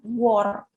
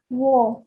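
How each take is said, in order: First: The word ends with a strong R sound. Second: The word ends in an open vowel without R. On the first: The speaker calls it wrong. "bukan war" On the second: The speaker calls it right. "Wo, bukan war"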